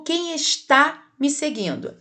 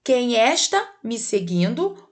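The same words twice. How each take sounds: First: "está" stressed on the final TÁ; stress on last syllable. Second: "está" said as ES-ta, open first e; misplaced word stress. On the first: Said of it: "é com acento". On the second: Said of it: "Como é que vai ficar essa primeira frase?". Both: Shown as a demonstration.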